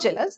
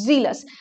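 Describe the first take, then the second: First: The word begins with a j sound. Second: The word begins with a z sound. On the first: The speaker calls it wrong. "Not জেলাস" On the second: The speaker calls it right. "It's জিলাস"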